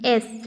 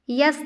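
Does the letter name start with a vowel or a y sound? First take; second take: vowel; y sound. First: It begins directly with a vowel. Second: It begins with a y sound. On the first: The speaker calls it right. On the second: The speaker calls it wrong.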